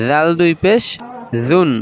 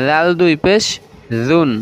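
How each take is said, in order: Both takes have the same delivery.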